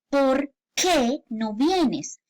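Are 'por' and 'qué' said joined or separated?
separated. There is a small gap between por and qué. The speaker calls it right. "tiene que haber ese espacio"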